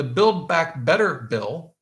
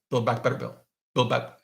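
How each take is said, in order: First: Said in the usual way. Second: Quick tongue-twister try at BUILD BACK BETTER BILL; tongue-twister attempt. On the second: Shown as a demonstration. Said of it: "say that three times fast".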